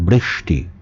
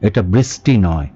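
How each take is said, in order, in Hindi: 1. बीच की हिस्स वाली आवाज़ 'sh' जैसी है। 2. बीच की हिस्स वाली आवाज़ 's' जैसी है। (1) "এটা বৃষ্টি।"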